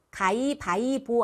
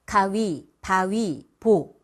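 First: 가위바위보 run together fast, glides dropped; wrong way. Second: 가위, 바위, 보 split apart, 위 glide clear, 보 called out loud; correct way. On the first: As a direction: blur 가위바위보 into one word. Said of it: "가위, 바위, 보. 이렇게 발음하셔야 돼요". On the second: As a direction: say each word of 가위 바위 보 separately. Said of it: "이렇게 발음하셔야 돼요". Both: Shown as a demonstration.

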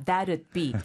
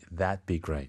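First: THAT'D in two clear beats, "that-ud"; careful enunciation. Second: THAT'D with the D swallowed, like "that be"; natural reduction. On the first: Retold or imitated. Teacher echoes the careful recording, "that'd" fully enunciated. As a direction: sound out the D in "that'd" distinctly. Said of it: "또박또박 발음을 해주시려다 보니까". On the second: Shown as a demonstration. Co-host shows natural speech, D in "That'd" dropped. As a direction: let the D of "That'd" vanish before "be". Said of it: "more naturally, eh, we would say".

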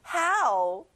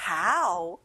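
First: "How" pronounced carefully and exactly; precise pronunciation. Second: Said in the usual way. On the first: Shown as a demonstration. Teacher repeating for pupils to copy, "How" precisely pronounced. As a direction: say "How" as a clear pronunciation model. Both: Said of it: "How 발음을 정확하게 내볼게요".

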